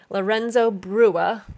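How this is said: It is said with an English accent.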